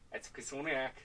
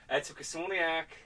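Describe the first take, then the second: First: It is said quietly. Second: It is said loudly.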